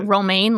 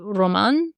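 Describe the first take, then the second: First: The name sounds like the lettuce word romaine. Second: The name sounds like the word Roman. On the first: This is how an English speaker would read it. The speaker calls it wrong. "If you were an English speaker, it would be romaine, like a head of romaine lettuce" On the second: This is how it seemed to be said in the film. The speaker calls it right. "But we heard maybe Roman"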